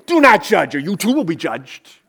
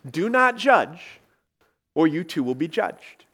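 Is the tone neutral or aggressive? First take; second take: aggressive; neutral. First: It is said with an aggressive, snippy attitude. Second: It is said in a calm, neutral tone.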